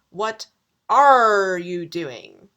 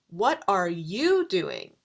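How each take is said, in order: First: The stress is on "are", like a pirate's arr. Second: The stress is on "you".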